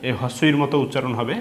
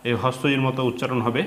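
The two takes are said the same way.

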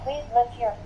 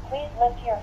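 Both takes have the same delivery.

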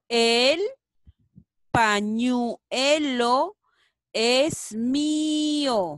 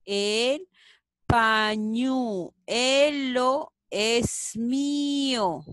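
First: Loud and very slow; loud slow reading. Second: Very slow, normal volume; slow rereading. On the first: Teacher reads the sentence aloud slowly for children. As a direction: stretch every word. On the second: Teacher rereads the sentence slowly at normal volume. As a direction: repeat it slowly. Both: Shown as a demonstration. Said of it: "¿Cuál será?".

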